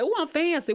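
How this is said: It is said with lively enthusiasm.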